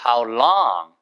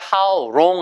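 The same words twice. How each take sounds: First: The word long is drawn out and lengthened. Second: The word long is said short and clipped. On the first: The speaker calls it right. "How long을 길게 하시면 돼요" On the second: The speaker calls it wrong. "절대 how long 아니에요"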